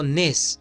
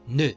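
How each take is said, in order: First: The final consonant is pronounced. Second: The final consonant is silent. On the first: The speaker calls it wrong. "No digo nes" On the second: The speaker calls it right. "digo ne"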